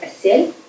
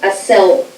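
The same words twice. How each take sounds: First: The vowel is a softer ye sound. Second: The vowel is a plain, hard e. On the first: The speaker calls it right. "the letter ye is read similarly to the Russian ye" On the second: The speaker calls it wrong. "and not as e. not"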